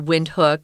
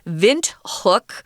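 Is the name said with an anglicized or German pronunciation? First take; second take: anglicized; German. First: The name is said with an anglicized pronunciation. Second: The name is said with a German pronunciation. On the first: "You can also say Windhoek" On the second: "which is the German pronunciation"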